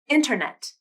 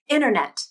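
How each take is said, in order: First: The T is clearly pronounced after the N. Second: The T is dropped, leaving only the N. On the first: "and then without a nasal flap" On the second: "first I'll pronounce them with a nasal flap"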